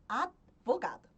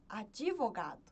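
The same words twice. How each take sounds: First: The D is released with no vowel after it. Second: An extra i vowel follows the D sound. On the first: "a gente não adiciona nenhuma vogal" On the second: "Eu sempre adiciono um I"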